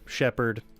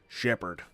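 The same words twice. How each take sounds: First: It is said in the speaker's normal voice. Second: It is said in a put-on character voice.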